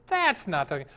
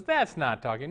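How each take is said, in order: First: Higher, emphatic THAT'S; exasperated objection. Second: Said in the usual way. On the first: Acted. Theater manager rejecting the dog's trick a second time, exasperated. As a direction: insist on it, punching THAT'S.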